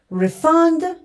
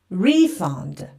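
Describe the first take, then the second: First: The stress is on the second syllable. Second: The stress is on the first syllable. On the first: It is used as a verb. "So the verb stress comes to the second part" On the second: It is used as a noun. "and the noun's stress comes to the first part"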